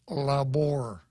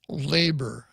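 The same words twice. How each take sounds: First: It is said with a Spanish-style pronunciation. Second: It is said with a plain English pronunciation. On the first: "Maybe it's labor" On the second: "Or am I mispronouncing it?"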